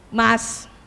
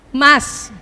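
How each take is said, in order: First: It is said at a normal pitch. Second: It is said at a somewhat higher pitch. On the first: The wife calls her husband for the first time. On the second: The husband did not turn after the first call.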